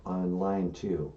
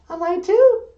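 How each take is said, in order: First: Said in the usual way. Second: High, loud puppet question; high female character, questioning. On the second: Acted. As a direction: echo it back in a high falsetto. Puppet Emily echoes him.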